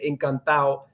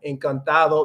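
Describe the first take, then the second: First: The ending is clipped, dropping the d sound. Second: The full ending is said with its d sound. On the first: "They cut off ado. ... they're gonna say" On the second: "instead of saying like uh"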